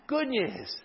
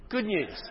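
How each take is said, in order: First: "Good" leaps much higher, loud and falling; repeating it to the congregation, "Good" punched high; strong stress on good. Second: "Good" lifted higher and louder; answering the congregation, "Good" stressed. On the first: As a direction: proclaim "Good news" with joy. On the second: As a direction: correct him firmly with "Good news". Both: Shown as a demonstration.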